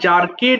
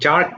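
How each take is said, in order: First: The ending is said as an extra syllable. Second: The ending is a plain consonant, no extra syllable. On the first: The speaker calls it wrong. "এটা আবার জার্কেড বলো না ভুল করে" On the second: The speaker calls it right. "জার্কড হবে"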